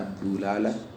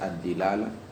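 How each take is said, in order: First: The first syllable has the vowel u. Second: The first syllable has the vowel i. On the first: "bisa dibaca ad-dulalah" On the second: "bisa dibaca ad-dilalah"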